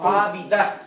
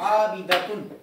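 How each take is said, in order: First: The word ends on an open a vowel. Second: The word ends with a t sound and nasal -un. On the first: The reciter stops on this word. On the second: The word is read connected.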